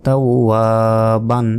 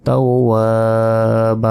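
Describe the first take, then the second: First: তাও বান closing on a sounded n; non-stop form. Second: তাও বা ending on a long open a, no n; stopping form. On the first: Teacher showing reading on without stopping, বান ending in n. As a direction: finish বান with n instead of an open long a. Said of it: "আর না থামলে". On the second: Teacher showing how to pause there, বা held long without n. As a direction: stretch the final বা for a second. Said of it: "এক second টান হবে". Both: Shown as a demonstration.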